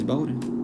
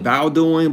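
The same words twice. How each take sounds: First: The first syllable rhymes with go. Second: The first syllable rhymes with cow. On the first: The speaker calls it right. "It's Bowdoin. Like, I guess because like Bo" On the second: The speaker calls it wrong. "I would call it Bowdoin because of [name]"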